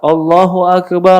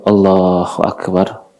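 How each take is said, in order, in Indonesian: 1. Frasa itu diucapkan dengan suara keras. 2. Frasa itu diucapkan dengan suara pelan. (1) "Dia suara keras" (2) "Lalu dia lirihkan suaranya"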